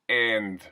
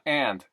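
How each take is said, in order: First: The vowel sounds closer to E. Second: The vowel is a normal short A.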